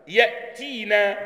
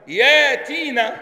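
First: "يأتينا" slowly, with a glottal stop after ya; hamza sounded. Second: "ياتينا" with a long aa and no glottal stop; hamza turned to alif. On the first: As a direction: cut the first vowel of "يأتينا" short on a still hamza. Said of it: "مش هنقول". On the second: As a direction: stretch the first vowel of "ياتينا", louder and higher. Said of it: "يبقى هنقول ايه يا اخوانا؟". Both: Shown as a demonstration.

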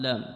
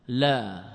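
First: "لام" said as lām, with the long a and final m; wrong name quoted. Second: "لا" said as plain lā, no final m; correct form. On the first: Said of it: "صحيح التعبير هذا؟". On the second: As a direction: give "لا" just as it is. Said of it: "لا يقال اللام". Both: Shown as a demonstration.

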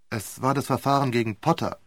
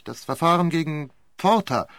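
First: Potter with a short clear T, POT-ter; corrected name Potter. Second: Porter with a rolled R, said as POR-ta; the mistaken name Porter, firm and sure; wrong name Porter. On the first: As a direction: correct him calmly with Potter. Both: Retold or imitated.

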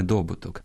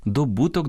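First: Добуток stressed on the first syllable, ДО-; wrong stress. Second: Добуток stressed on -БУ-; correct stress. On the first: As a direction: hit DO at the start of добуток. (наголос на першому складі: добуток) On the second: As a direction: hit BU, the second syllable of добуток. (наголос на другому складі: добуток) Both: Shown as a demonstration. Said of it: "а не добуток".

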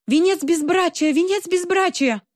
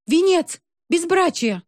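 First: High frantic shout. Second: High shrill accusing shout. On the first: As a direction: scream it out desperately. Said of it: "кричала она". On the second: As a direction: jab the words out, yelling. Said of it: "Любочка ткнула в них пальцем". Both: A narrator's reading.

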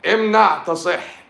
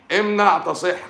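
First: High, slow and loud, mock proclamation; shouted slogan. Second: High and loud, a touch quicker than before; shouted slogan. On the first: Doctor yelling a mock slogan at the audience, slow and loud. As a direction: bellow it out like a hammy slogan. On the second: Acted. Doctor repeating a mock slogan to viewers, loud and high. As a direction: belt the slogan out once more.

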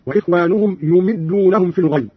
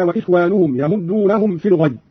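First: يمدونهم said yumiddūnahum; Qalun's reading. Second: Said in the usual way. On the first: Shown as a demonstration. Teacher demonstrating Qalun's reading, يمدونهم as yumiddūnahum. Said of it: "قرأ قالون بضم الياء وكسر الميم هكذا". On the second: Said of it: "قرأ قالون بضم الياء".

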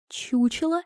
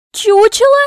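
First: High, restrained, disbelieving question; high incredulous echo; stunned echo. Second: Very high, very loud echo; explosive high-pitched question; outraged shriek. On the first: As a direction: repeat it quietly in disbelief. Princess stunned by the insult. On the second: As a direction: shriek it in indignant disbelief. Princess outraged, repeats the insult. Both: Acted.

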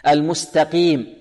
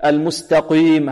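First: Slow المستقيم with a clean qiim; correct least-heavy qaf. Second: Slow المستقيم with qiim thickened into quym; mistaken heavy qaf. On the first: Shown as a demonstration. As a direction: keep the ee after ق pure in المستقيم. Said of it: "وهي في أقل مراتب التفخيم". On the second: Retold or imitated. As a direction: overdo the heaviness of ق in المستقيم. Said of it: "هذا خطأ".

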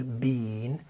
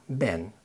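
First: "بين" with a long stretched ee; "بين" long ee vowel. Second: "بان" with a light, quick short vowel. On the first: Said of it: "طويلة شوية بنقول". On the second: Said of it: "خفيفة سريعة". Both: Shown as a demonstration.

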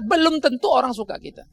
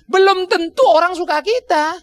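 First: Belum stressed, then falling away; repeated line, weight moved to belum. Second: Tentu lifted high and drawn out, slow; emphatic slow warning, peak on tentu; stress on tentu. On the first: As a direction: hit belum, let the rest drop. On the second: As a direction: lean hard on tentu, slowly. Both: Shown as a demonstration. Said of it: "tolong perhatikan baik-baik ya".

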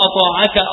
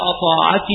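First: "أطاعك" ending in -ka, open a on the kaf; masculine kaf with fatha. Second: "أطاعك" ending in -ki, i vowel on the kaf; feminine kaf with kasra. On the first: Teacher models the masculine form for students, ending in -ka. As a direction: say "أطاعك" as ata'aka with a clear fatha. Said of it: "الكاف المفتوحة للمخاطب". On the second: Teacher models the feminine form for students, ending in -ki. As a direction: say "أطاعك" as ata'aki, a touch lower and softer. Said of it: "الكاف المكسورة للمخاطبة". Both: Shown as a demonstration.

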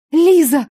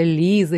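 First: Loud, high sudden cry; yelling. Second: Said in the usual way. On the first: A narrator's reading. Patient suddenly remembering who hurt her, yelling. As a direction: blurt the name at full voice. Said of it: "заорала я".

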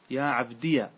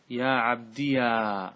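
First: "عبديا" ending in a short -ya; yā' with fatha. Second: "عبديا" with a very long final -yaaa; alif of release. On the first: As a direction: end "عبديا" on ya without stretching it. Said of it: "إثبات الياء وفتحها". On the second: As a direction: slowly draw out the last a of "عبديا". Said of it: "هذا الألف للإطلاق". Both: Shown as a demonstration.

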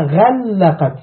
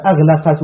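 First: غلقت drawn out slowly, "ghal-laqat"; intensive doubled form. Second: أغلقت said "aghlaqat", with a single l; light single lam in أغلقت; undoubled verb form. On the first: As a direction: lean long on the doubled l in غلقت. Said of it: "يدل على المبالغة". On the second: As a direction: say أغلقت as agh-la-qat, nothing doubled. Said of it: "شو ما قالش الله تعالى". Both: Shown as a demonstration.

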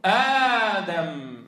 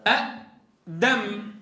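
First: آدم with the first vowel drawn out long and slow; long madd. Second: أدم with two glottal stops, short and very slow; original form. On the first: Teacher showing students the long vowel, drawn out. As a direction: stretch the aa in آدم. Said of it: "فنقول". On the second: Teacher showing students the original form, slow and spelled out. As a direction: spell out أدم as two separate hamzas, slowly. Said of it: "ما أصلها؟". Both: Shown as a demonstration.

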